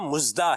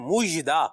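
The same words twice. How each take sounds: First: The middle consonant is a z sound. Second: The middle consonant is a zh sound. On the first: The speaker calls it wrong. "ना यहाँ जे है" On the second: The speaker calls it right. "ये है मुजदा"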